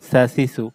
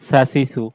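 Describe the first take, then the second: No difference in how they are said.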